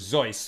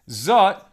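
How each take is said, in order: First: The word ends with an s sound. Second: The word ends with a t sound.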